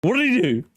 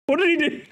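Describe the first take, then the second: First: Said in the usual way. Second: Pitched up high, building to the punchline; high rhetorical question. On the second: Real, not acted. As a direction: land it high and pointed, "What did he do?". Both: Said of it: "What did he do, gamers?".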